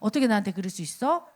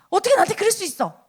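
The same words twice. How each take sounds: First: It is said calmly with emotion toned down. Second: It is said with strong angry emotion.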